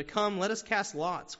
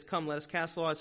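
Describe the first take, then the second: First: Higher, louder and slower, urging; slow, raised plea to cast lots; panicked sailors. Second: Said in the usual way. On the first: Retold or imitated. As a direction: call out like frightened sailors in a storm. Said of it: "are still panicking". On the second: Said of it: "it says".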